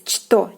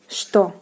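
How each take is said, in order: First: The word begins with a ch sound. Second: The word begins with an sh sound. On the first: The speaker calls it wrong. "if you don't know, you will pronounce like as it is" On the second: The speaker calls it right. "the consonant ch is pronounced as sh, so it will be pronounced like this"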